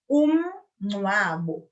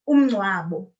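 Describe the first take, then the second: First: There is a short pause after the first syllable. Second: The word runs together with no pause inside. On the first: The speaker calls it right. "give yourself a little pause after the um" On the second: The speaker calls it wrong. "It will be easier for you to say than"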